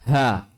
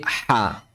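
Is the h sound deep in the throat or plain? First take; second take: plain; deep. First: The h is a plain, light breath. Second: The h is made deep in the throat. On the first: The speaker calls it wrong. "jadi bukan ha" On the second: The speaker calls it right. "tapi ha"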